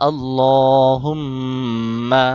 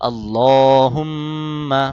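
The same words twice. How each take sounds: Both takes have the same delivery.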